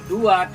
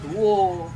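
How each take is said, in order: First: The word ends in an 'a' sound. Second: The word ends in an 'o' sound. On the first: This is the standard Indonesian form. "Kalau dua" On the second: This is the Javanese-style form. "Bahasa Jawa Indonesia itu hanya ganti o"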